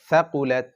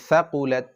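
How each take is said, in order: No difference in how they are said.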